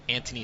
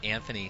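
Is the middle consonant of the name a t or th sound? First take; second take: t; th. First: The middle consonant is a plain t sound. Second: The middle consonant is a th sound. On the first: The speaker calls it right. "I see an H there, but uh, in speaking with him yesterday, he pronounces it" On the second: The speaker calls it wrong.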